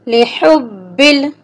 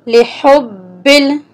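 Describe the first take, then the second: Both takes have the same delivery.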